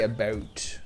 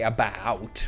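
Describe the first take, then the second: First: The vowel is said the Canadian way. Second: The vowel is said the American way, mouth open. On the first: "Canadians say about" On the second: "Americans say about, like big ass open mouth"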